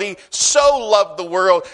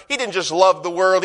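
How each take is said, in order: First: The word so leaned on and lifted; so said with weight and a held beat; stress on so. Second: Said in the usual way. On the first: Shown as a demonstration. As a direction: hit so in He so loved the world. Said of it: "there has to be emphasis". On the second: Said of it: "He couldn't just use a verb".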